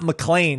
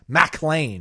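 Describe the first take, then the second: First: The stress is on the second syllable. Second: The stress is on the first syllable. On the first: The speaker calls it wrong. "It's not McLean" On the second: The speaker calls it right. "there's an emphasis on the Mac?"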